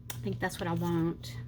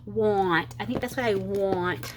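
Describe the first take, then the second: First: "want" rounded so it sounds like "won't"; "want" slurred towards "won't", softly. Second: "want" with an open ah, unlike "won't"; corrected want. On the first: Real, not acted. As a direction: say "want" with a long o glide, as "won't". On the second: Shown as a demonstration. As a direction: say "want" clearly as "wahnt". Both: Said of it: "not won't".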